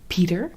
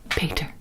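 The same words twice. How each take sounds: First: The name is said with an English pronunciation. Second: The name is said with a Dutch pronunciation. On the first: "for you guys it would be" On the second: "for us it, it is"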